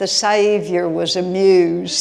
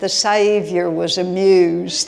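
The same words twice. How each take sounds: First: It is said in a Southern accent. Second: It is said in a Southern accent.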